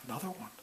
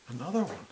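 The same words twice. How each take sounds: First: Soft, deflated "Another one."; a much softer, jaded "Another one."; weary sigh. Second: Said in the usual way. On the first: Retold or imitated. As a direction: drag out "Another one." like one more dull day. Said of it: "That's a horrible way to live".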